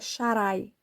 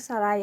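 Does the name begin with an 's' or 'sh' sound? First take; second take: sh; s. First: The name begins with an sh sound. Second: The name begins with a plain s sound. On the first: The speaker calls it right. "é Sharai" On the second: The speaker calls it wrong. "que eles dizem que é Sarai, não é Sarai"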